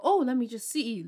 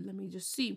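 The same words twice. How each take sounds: First: Said in the usual way. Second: "let me just see" said much softer; quiet aside. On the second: Retold or imitated. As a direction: drop to a muttered aside. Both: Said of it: "I go".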